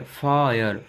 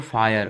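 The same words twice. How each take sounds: First: "फायर" split as फा...यर; sounded-out word. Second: Said in the usual way. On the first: Shown as a demonstration. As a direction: hold the आ in "फायर", then add यर. ("फायर" को फा...यर तोड़कर) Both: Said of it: "आ निकल रहा है".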